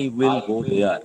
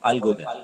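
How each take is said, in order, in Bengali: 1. ধীর, প্রতিটি সিলেবলে সমান গুরুত্ব। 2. দ্রুত, জোর পড়ে go-তে। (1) "এতটা বাংলা মতো করে বললাম, এতটা সময় নিয়ে বললাম" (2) "দেখো কত কম সময় লাগে"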